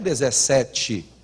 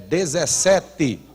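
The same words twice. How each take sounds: First: The last syllable has a ch-like sound. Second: The last syllable has a plain t sound. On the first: The speaker calls it wrong. "Não é dezessete" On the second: The speaker calls it right. "É dezessete"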